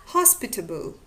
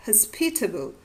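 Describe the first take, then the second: First: "hospitable" stressed on HOS; stress on first syllable. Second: "hospitable" stressed on PIT; stress on second syllable. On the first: Lecturer illustrating a variant to students, "hospitable" stressed on the first syllable. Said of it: "The stress on the initial syllable". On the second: Lecturer illustrating a variant to students, "hospitable" stressed on the second syllable. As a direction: say "hospitable" as hos-PIT-a-ble, weak first syllable. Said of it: "or the stress on the second syllable". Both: Shown as a demonstration.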